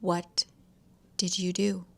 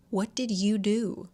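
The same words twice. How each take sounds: First: "What" alone, pause, then "did you do"; repeated question. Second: "What did you do" drawn out in one run; pressed question. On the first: Louise asks David once more, halting repeated question. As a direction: break after "What" for a measured repeat. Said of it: "I ask again". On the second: Narrator confronts David, pressed question. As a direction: ask "What did you do" slowly, without a break. Reading a heated confrontation aloud. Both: A narrator's reading.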